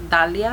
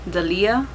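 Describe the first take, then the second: First: The stress falls in its usual place. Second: The stress is moved to another syllable. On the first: This is how family says the name. The speaker calls it right. "everyone calls me Dalia at home" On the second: This is how people at school said it. The speaker calls it wrong. "They put the accent somewhere else"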